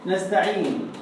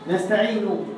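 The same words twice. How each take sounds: The two takes are said the same way.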